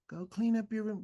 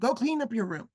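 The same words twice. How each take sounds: First: It is said softly, without a commanding tone. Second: It is said firmly, with a commanding tone. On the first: The speaker calls it wrong. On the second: The speaker calls it right. "you want to command"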